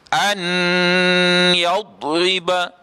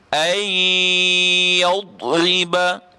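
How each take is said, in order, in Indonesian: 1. Bunyi n diucapkan dengan jelas sebelum y. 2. Bunyi n menyatu, sengau, ke dalam y. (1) "Jangan bunyi an yadriba" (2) "dia bunyi ai ai yadriba"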